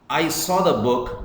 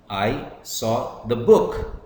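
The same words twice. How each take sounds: First: The stress falls on the word saw. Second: The stress falls on the word book. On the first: The book was seen but not taken. "but I did not take it" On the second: It was this book and nothing else. "I'm stressing the book"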